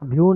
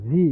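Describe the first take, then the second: First: The word ends with a 'yoo' sound. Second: The word ends with a plain 'ee' sound. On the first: The speaker calls it wrong. "ভিউ না" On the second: The speaker calls it right. "এটা উচ্চারণ হবে ভি।"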